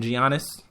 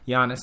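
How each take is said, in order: First: The name begins with a hard G sound. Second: The name begins with a Y sound. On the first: The speaker calls it wrong. "I kept calling him Giannis" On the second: The speaker calls it right. "the G is pronounced like a Y"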